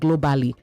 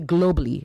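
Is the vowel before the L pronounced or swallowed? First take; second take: pronounced; swallowed. First: The vowel before the L is fully pronounced. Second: The vowel before the L is swallowed. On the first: The speaker calls it wrong. "not globally" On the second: The speaker calls it right. "You swallow the A there"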